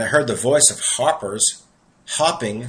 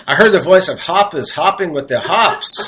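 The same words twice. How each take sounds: First: Said in the usual way. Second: Loud, higher New York accent, playing it up; New York accent, dropping the R in "hoppers". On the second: Shown as a demonstration. Preacher owning up to his accent as he reads scripture, New York accent. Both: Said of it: "I gotta say this in my New York accent".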